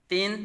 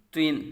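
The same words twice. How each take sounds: First: تن said as "tin" with a light front t; thin, light Tin. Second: تن said as "twin" with a thick, rounded t; full, heavy Twin. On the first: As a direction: keep the t of تن thin, vowel a clean i. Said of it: "یہ باریک اور یہ". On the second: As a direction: thicken the t of تن before the i. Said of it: "پر پڑھا جائے گا". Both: Shown as a demonstration.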